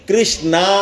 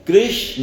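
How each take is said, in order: First: The word ends in a long aa vowel. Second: The word ends in a short a vowel. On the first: The speaker calls it wrong. "ये भी नहीं बोलना, ये गलत है।" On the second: The speaker calls it right. "न पूरा बोलने पे उसमें साउंड आएगी अ, आ नहीं।"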